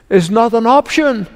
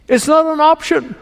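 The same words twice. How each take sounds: First: Said in the usual way. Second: NOT lifted high and leaned on; stress on NOT. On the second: Shown as a demonstration. Preacher repeating to the congregation, stress on not.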